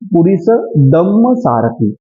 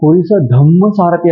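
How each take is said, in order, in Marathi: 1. मधला शब्द साध्या d ने सुरू होतो. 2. मधला शब्द महाप्राण dh ने सुरू होतो. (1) "द पुरीस दम्म सारथी अशा प्रकारचं उच्चारण आपण तिथे व्हायला पाहिजे" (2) "काही जण बोलताना पुरीस धम्म सारथी असं म्हणतात"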